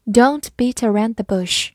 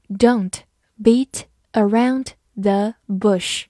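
First: Said in the usual way. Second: Slow read. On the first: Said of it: "normal repeat". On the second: Shown as a demonstration. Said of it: "slow then normal repeat".

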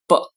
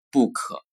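First: Book with a short clean b and no added vowel; crisp English book. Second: Book with vowels tacked on like bu ke; wrong Chinglish book; pinyin-style book. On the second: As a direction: say book the Chinese way. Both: Shown as a demonstration. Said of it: "不能读作book".

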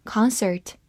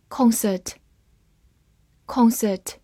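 First: "concert" with an American open "ah" in the first syllable; American pronunciation. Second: Said in the usual way. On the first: Shown as a demonstration. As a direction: say "concert" the American way, starting "kahn". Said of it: "美式发音". (用美式发音读“concert”，第一个音节读成张开的“啊”) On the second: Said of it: "美式发音concert".

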